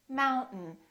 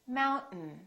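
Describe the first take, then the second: The two takes are said the same way.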